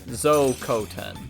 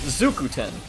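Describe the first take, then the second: First: The middle syllable sounds like 'ko'. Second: The middle syllable sounds like 'chew'. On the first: The speaker calls it right. "That's a ko. That's gotta be a ko" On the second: The speaker calls it wrong. "no, that's a C H, which would, that's not like a chew"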